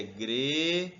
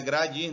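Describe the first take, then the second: First: Gredir with a long E, greee-dir; corrected vowel. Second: Gradir said with an A, gra-dir; wrong vowel. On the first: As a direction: stretch the first syllable of gredir on E. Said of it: "Aqui é gredir". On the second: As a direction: say gradir with open A in the first syllable. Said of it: "Não é gradir". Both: Shown as a demonstration.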